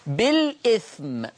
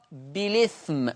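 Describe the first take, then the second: First: "بالإثم" slowly as bil-'ithm; original hamza. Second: "بالإثم" as bi-lithm, no glottal stop; hamza transfer. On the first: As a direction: glottal stop after the l in "بالإثم". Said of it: "تقرأ". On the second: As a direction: slide the l of "بالإثم" into the i. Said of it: "بشيل الهمزة وانقل الحركة". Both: Shown as a demonstration.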